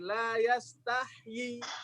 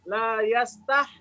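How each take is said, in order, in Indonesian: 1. Bunyi 'yi' di akhir terucap penuh. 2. Bunyi 'yi' di akhir hampir tidak terdengar. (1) "ya-nya dibaca yi. Y-nya satu harokat" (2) "ya-nya sukun"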